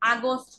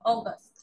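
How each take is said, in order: First: The first vowel is an open 'ah' sound. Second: The first vowel is a rounded 'aw' sound. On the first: The speaker calls it wrong. "আগস্ট না" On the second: The speaker calls it right.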